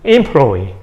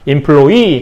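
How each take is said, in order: First: The stress is on the first syllable. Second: The stress is on the last syllable. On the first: This is a predicted form about two centuries from now. "강세가 앞으로 옮겨갈 겁니다. 그래서 employee 이렇게 될 겁니다" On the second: This is the current form from French. "강사가 뒤에 있죠?"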